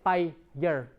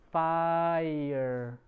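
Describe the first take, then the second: First: The word is split into separate syllables. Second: The word is said as one syllable. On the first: The speaker calls it wrong. "you don't say fire" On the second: The speaker calls it right. "it's fire. So you only touched once"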